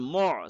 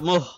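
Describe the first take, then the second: First: It has a deep sound from the throat. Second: It ends with a light breathy h sound. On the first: The speaker calls it right. "It comes from the middle throat... The sound will be deeper" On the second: The speaker calls it wrong. "Not muh, it is ayn here"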